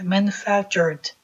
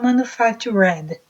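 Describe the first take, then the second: First: The R runs straight into the final D. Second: The ending sounds like a separate syllable 'red'. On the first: The speaker calls it right. "É manufactured. Você enrola o R e já pula logo para o D" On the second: The speaker calls it wrong. "Senão a gente vai falar manufactured. E não é red"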